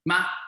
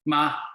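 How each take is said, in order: First: The pitch rises from low to high. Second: The pitch falls sharply from high to low. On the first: It means a baby frog. "The second tone is the rising tone" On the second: It means to scold. "Is the falling tone. Going down"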